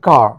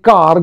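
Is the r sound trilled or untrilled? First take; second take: untrilled; trilled. First: The r is soft and untrilled. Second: The r is trilled. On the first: This is how English speakers say it. "ওরা বলবেন কার" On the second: This is how Bengali speakers say it. "আমরা বলি কার"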